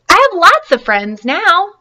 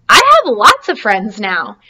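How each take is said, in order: First: Louder, higher and slower, full of joy; joyful shout, slow and high; happy loud repeat. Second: Said in the usual way. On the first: Acted. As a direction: call it out happily across the pond. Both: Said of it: "he said it again very loudly".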